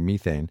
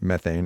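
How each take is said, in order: First: It is said with a British pronunciation. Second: It is said with an American pronunciation.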